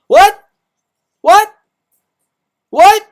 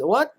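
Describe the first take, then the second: First: High, loud yelled what; screaming what at the top of the voice; shouted what. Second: Said in the usual way. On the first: Shown as a demonstration. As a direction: belt it out in mock disbelief. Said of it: "I'm gonna say what, what, five more times". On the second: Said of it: "I'm gonna say what".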